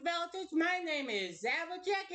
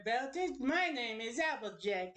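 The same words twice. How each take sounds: First: Higher, put-on country accent; Applejack. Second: Put-on country accent slipping away; half-hearted country accent at usual pitch; lost Applejack accent. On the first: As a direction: lift it into a cowgirl accent. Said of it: "I fucking lost the accent". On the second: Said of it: "I lost the accent".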